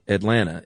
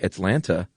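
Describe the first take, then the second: First: The T's are softened, like 'Adlanna'. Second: The T's are pronounced crisply and formally.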